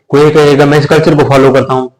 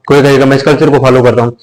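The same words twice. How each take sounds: The two takes are said the same way.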